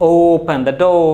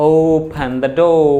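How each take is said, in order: The two takes are said the same way.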